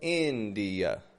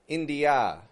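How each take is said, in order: First: The final vowel is a quick, quiet schwa. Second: The final vowel is a full, clear vowel. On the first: The speaker calls it right. "is a schwa. ... Going very quick and quiet, fading kind of ending" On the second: The speaker calls it wrong. "I'm not saying India"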